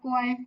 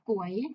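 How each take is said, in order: First: The syllable is said with a level mid tone. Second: The syllable is said with a rising tone.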